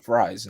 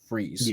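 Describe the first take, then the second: First: The vowel sounds like 'eye'. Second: The vowel sounds like 'ee'. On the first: "you would say fries" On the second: "not freeze"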